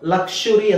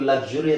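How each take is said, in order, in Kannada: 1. ಮಧ್ಯದ ಶಬ್ದ 'k' ನಂತರ 'sh'. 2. ಮಧ್ಯದ ಶಬ್ದ 'k' ನಂತರ 's'. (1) "ಲಕ್ಷುರಿ ಅಂತಾನು ಹೇಳ್ಬೋದು" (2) "ಲಕ್ಸುರಿ ಅಂತಾನು ಹೇಳ್ಬೋದು"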